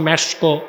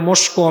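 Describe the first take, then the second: First: It is said as 'mesko' with an extra final vowel. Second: It is said as 'mosko' with an extra final vowel. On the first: "আমাদের দেশে মানুষ বলে" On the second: "আমাদের দেশে মানুষ বলে"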